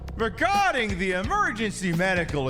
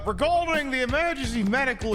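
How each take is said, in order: First: It is read in a natural speaking voice. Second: It is read in a put-on character voice.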